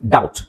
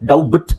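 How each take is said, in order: First: No b sound is heard in the middle. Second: A b sound is heard in the middle. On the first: The speaker calls it right. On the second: The speaker calls it wrong.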